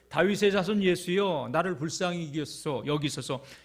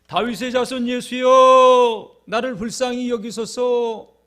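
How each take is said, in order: First: It is said calmly, at a normal volume. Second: It is said loudly, raising the voice.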